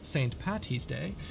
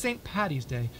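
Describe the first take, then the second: First: The middle consonant sounds like a t. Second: The middle consonant sounds like a d. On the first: The speaker calls it wrong. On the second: The speaker calls it right. "at least get the name correct. It is"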